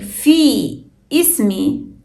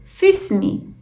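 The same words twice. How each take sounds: First: The words are separated, with the hamza pronounced. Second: The words run together with no pause between. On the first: The speaker calls it wrong. "Instead of saying" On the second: The speaker calls it right. "It flows as one word. We don't pause between في and اسمي"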